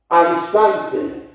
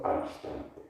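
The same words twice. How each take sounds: First: AL INSTANTE high, loud and drawn out; ringing, stretched stress on "Al instante"; emphatic key phrase. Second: "al instante" soft, nearly whispered; much softer, reverent "al instante"; hushed key phrase. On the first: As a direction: proclaim "Al instante" slowly, hitting it hard. Preacher stresses the Gospel's key phrase. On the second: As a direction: let "al instante" drop to a hush. Same key phrase repeated softly. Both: Shown as a demonstration.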